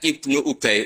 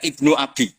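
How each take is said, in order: First: The second word sounds like Ubay. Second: The second word sounds like Abi. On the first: It names a person called Ubay. The speaker calls it right. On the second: It means the son of my father. The speaker calls it wrong.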